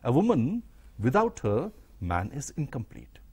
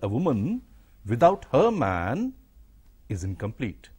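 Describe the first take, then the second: First: The pause comes after the word 'her'. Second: The pause comes after the word 'man'. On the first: The man is incomplete. "if you don't have a pause after without her, but after man, then the woman becomes incomplete" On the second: The woman is incomplete. "but after man, then the woman becomes incomplete"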